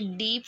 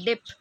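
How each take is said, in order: First: The vowel is long. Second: The vowel is short. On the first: "डीप word है" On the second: "उसको डिप pronounce करते हैं"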